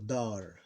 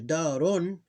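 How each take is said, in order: First: The word ends on the r consonant. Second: The word ends with a vowel plus n. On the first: "if we want sukun ending become, you ignore the vowel" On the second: "Here darun"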